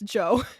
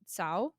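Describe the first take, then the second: First: The name begins with a 'j' sound. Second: The name begins with a 'ts' sound. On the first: The speaker calls it right. "That's Zhou" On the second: The speaker calls it wrong. "I think the sound I made was the T S sound"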